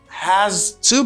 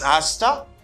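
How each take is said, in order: First: Both words are said fully and separately. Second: The words blend into one reduced form.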